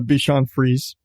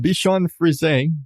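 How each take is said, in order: First: The name is said with English pronunciation. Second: The name is said with French pronunciation. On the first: The speaker calls it wrong. "everybody calls him the Bichon Frise" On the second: The speaker calls it right. "if you're saying it right"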